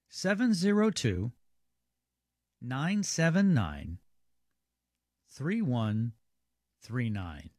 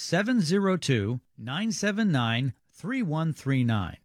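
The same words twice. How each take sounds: First: The number is read more slowly. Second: The number is read at normal speed.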